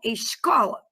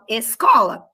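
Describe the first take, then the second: First: The s before the c sounds like sh. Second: The s before the c is a plain s. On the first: This is how the listeners' region says it. "Vocês falam escola" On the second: This is how the speaker's region says it. "eu falo escola"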